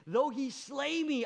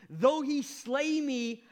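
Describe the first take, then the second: First: "though" stressed, a little less loud; "Though he slay me" with "though" stressed; emphatic repeat. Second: SLAY stretched out loud and high; "Though he slay me" with "slay" slow and loud; slow emphatic. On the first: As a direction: lean on "though", falling. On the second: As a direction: drag out "slay" with full force. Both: Acted. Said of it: "he says".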